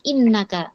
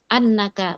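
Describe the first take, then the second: First: The first vowel is a front i sound. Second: The first vowel is an open a sound. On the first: The speaker calls it wrong. "bukan innaka" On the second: The speaker calls it right. "diperhatikan di sini annaka"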